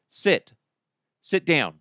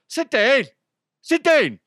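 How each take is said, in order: First: It is said in a plain, non-Irish accent. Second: It is said in a heavy Irish accent. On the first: The command is not understood. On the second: The command is understood.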